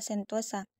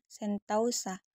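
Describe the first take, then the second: First: The middle syllable has a single plain vowel. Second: The middle syllable has a gliding diphthong. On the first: This is the standard form. "bentuk tersebut sudah dibakukan" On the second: This is the common everyday form. "kita masih sering mengucapkan sentausa"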